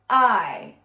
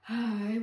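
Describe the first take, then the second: First: The vowel starts with a light glottal catch. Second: The vowel starts with audible breath first. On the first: The speaker calls it right. "It's somewhere in the middle" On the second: The speaker calls it wrong. "which is breathy attack"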